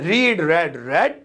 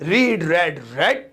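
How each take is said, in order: Both takes have the same delivery.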